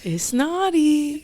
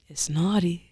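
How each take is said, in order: First: The voice is soft and gentle. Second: The voice is slightly raspy and rough. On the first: "I come in with a soft voice" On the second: "when I come with a little raspy"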